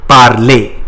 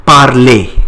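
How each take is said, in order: First: Parler again, slow and clear, par-lay; French word repeated. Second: Parler, said the French way; French word. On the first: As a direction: model parler for the class. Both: Shown as a demonstration. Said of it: "To speak in French is called".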